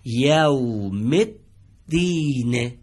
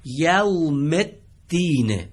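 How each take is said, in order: First: یوم الدین very slow, میم joined straight to the doubled دال; joined reading. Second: یوم الدین drawn out very slowly; slow recitation. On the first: Teacher gives the correct joined reading. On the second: Teacher models the third phrase slowly. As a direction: stretch out یوم الدین for the class. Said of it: "عبارت سوم رو دقت بفهمید". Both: Shown as a demonstration.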